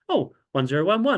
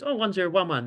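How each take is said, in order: First: It is said with exaggerated surprise. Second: It is said in a plain, matter-of-fact way.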